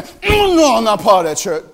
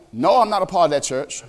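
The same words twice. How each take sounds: First: Dismissive denial. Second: Said in the usual way. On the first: Retold or imitated. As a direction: wave it away fast. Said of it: "He's saying". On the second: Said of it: "This goes beyond just saying".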